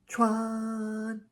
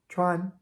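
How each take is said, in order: First: The syllable is drawn out for a long time. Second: The syllable is held briefly at a high level. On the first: The speaker calls it wrong. "It's not elongated. You wouldn't say chuan" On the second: The speaker calls it right. "That's even too long. Chuan"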